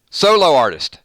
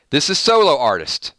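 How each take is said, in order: First: "Solo artist" with weight on "Solo"; stress on solo. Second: Said in the usual way. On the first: Shown as a demonstration. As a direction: punch the word "Solo".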